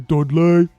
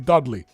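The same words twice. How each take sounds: First: It is said in a broad Brummie accent. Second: It is said in a plain, non-Brummie accent. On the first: This is how the locals say it. "They would say Dudley" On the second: This is how the speaker says it. "I say Dudley"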